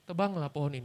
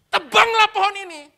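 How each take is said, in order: First: It is read flatly without emphasis. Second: It is read forcefully like an exclamation. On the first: The speaker calls it wrong. "Ah kurang, kurang. Nggak ada rasa" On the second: The speaker calls it right. "Tekan, tuh, tuh. ... Gitu bacanya. Tanda seru kok"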